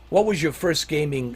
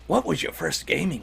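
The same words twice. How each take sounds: First: It is read in a normal voice. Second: It is read in a gruff, put-on voice.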